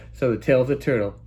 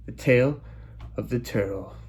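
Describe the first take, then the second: First: Said in the usual way. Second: Dramatic title read. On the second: Acted. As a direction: announce the episode title like a trailer.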